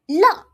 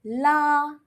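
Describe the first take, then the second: First: "la" short, loud, falling from high; fourth tone. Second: "La" long, high and level; first tone. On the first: Teacher shows learners tone four, "la" falling sharply. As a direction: drop "la" sharply from a high pitch. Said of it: "fourth tone". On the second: Teacher repeats the word for pull, "La" high and level. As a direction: hold "La" steady on a high note. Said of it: "first tone". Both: Shown as a demonstration.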